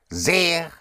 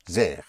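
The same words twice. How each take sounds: First: SEHR with a long drawn-out E, higher; stretched-out vowel. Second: SEHR with its vowel kept short, lower. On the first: Teacher showing what the H does, SEHR with an elongated vowel. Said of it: "stretched out with an H". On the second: Teacher showing the word without an H, SEHR with a short vowel. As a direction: say SEHR quickly closed, without lengthening the E. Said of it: "Without the H, it would be". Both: Shown as a demonstration.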